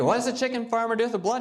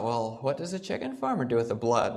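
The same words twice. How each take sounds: First: Higher, fast, disbelieving repeat; incredulous. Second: Said in the usual way. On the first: Retold or imitated. As a vegetarian doctor hearing about farms, fast incredulous question.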